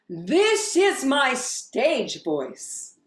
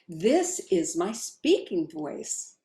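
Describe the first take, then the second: First: It is said loudly and projected. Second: It is said at normal talking volume.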